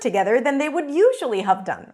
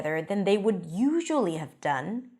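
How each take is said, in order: First: It is read in a bright, cheerful tone. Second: It is read in a tense, nervous tone. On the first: The reading does not match the mood of the scene. The speaker calls it wrong. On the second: The reading matches the uneasy mood of the scene. The speaker calls it right.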